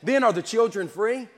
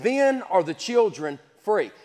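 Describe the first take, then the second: First: It ends rising, like a question. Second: It ends falling, like a statement.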